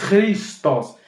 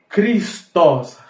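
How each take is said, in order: No difference in how they are said.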